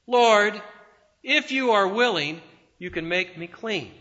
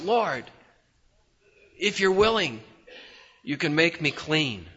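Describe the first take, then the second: First: It is said in a clear voice. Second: It is said in a husky voice.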